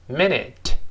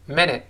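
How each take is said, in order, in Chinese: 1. 这个词读得慢，而且读得完整。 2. 这个词读得快，t 不爆破。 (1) "慢慢读" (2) "快读"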